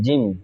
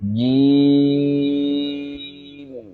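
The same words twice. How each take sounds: First: The vowel is short. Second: The vowel is drawn out long. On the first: The speaker calls it wrong. "এরকম না" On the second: The speaker calls it right. "জিমের মধ্যে চার আলিফ টান হবে"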